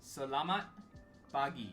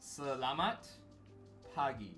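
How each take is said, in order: First: Every syllable is pronounced slowly and clearly. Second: Every syllable is pronounced slowly and clearly.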